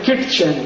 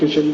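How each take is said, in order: First: A t sound is heard before the ch. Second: No t sound is heard before the ch. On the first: "एक शब्द है किटचेन" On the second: "टी silent है"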